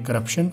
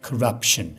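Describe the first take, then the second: First: It is said with a local Pakistani accent. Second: It is said with a native English accent. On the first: "इसको local हम बोल रहे हैं" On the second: "इसको गोरे कैसे बोलेंगे?"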